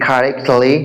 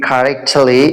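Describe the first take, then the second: No difference in how they are said.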